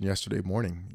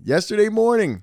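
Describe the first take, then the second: First: Said in the usual way. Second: "Yesterday morning" pitched high and loud; emphatic repetition. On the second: Real, not acted. Stressing to friend how recent it was, emphatic. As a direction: hit "Yesterday morning" in a raised, louder voice.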